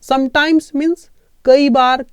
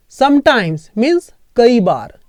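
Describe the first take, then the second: First: Slow repeat for memorizing. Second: Sometimes means कई बार, drawn out slowly; slow for memorizing. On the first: Teacher repeating the word meaning for students to memorize. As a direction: repeat it slowly so it sticks. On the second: Teacher slowly giving students a word to memorize. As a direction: say it slowly so they can memorize it. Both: Shown as a demonstration. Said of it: "इसको याद रख लो".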